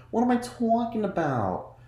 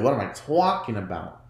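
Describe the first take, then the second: First: "What am I talking about?" jumped much higher, falling at the end; mock confused. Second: Said in the usual way. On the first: Shown as a demonstration. Correcting herself about the show, high mock confusion.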